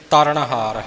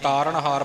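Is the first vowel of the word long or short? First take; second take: short; long. First: The first vowel is short. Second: The first vowel is long. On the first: The speaker calls it right. "ਤਰਨਹਾਰ ਹੈ" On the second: The speaker calls it wrong. "ਤਾਰਨਹਾਰ ਪਾਠ ਨਹੀਂ"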